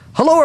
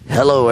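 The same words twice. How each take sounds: First: The voice rises and falls with lively inflection. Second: The voice stays flat and monotone throughout. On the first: The speaker calls it right. "Wow. Inflection" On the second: The speaker calls it wrong. "nice and flat and monotone"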